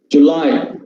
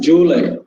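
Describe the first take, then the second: First: The first syllable has a short vowel. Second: The first syllable has a long vowel. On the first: The speaker calls it right. "The first syllable is short vowel. The stressed part comes in the second syllable" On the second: The speaker calls it wrong. "people, especially Tamilians, would read this word as July. First syllable ... we give long syllable"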